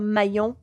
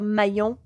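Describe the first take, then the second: First: The name is said with a French pronunciation. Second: The same.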